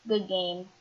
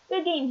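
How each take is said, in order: First: Said in the usual way. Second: Smirky. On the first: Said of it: "repeat of line plain". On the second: Acted. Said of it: "he says. Smirky".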